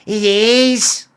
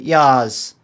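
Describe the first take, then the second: First: The word is said in a Liverpool accent. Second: The word is said in a southern English accent. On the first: "Like Liverpudlian, we go like" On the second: "you talk about yas"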